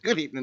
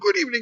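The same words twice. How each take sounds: First: It is said in a plain everyday voice. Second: It is said in a put-on sinister voice.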